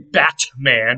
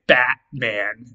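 First: The middle consonant is a clearly released T sound. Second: The middle consonant is a catch in the throat. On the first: The speaker calls it wrong. "I don't say Batman with an actual T there. That would sound a little bit weird" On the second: The speaker calls it right. "I say Batman. And so I actually replace the T with a glottal stop"

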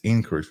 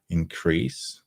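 First: The stress is on the first syllable. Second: The stress is on the second syllable. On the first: It is a noun meaning a rise. "No to mamy różnicę tutaj już też w akcencie" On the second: It is a verb meaning to grow. "czyli tutaj mamy czasownik i druga część słowa jest akcentowana"

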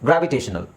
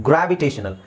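No difference in how they are said.

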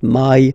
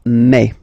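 First: The vowel is an English 'eye' diphthong. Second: The vowel is a French open 'e' sound. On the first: The speaker calls it wrong. "people tend to try to pronounce it the English way" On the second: The speaker calls it right. "So really open E"

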